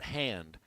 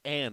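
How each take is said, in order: First: The word starts with an added h sound. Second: The word starts directly with a vowel. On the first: The speaker calls it wrong. "Don't put in extra H's" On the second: The speaker calls it right. "It's it's it's and"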